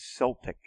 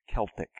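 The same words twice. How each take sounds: First: The word begins with an S sound. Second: The word begins with a K sound. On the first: "It's more of the French way of saying it to have it with an S" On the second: "the Latin Greek way of pronouncing it is Celtic with a K"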